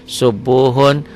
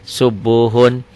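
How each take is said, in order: No difference in how they are said.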